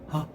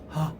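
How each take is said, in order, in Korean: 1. 숨이 섞이고 고르지 않으며, 닫힘이 느슨한 소리. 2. 숨이 섞이고 고르지 않으며, 닫힘이 느슨한 소리.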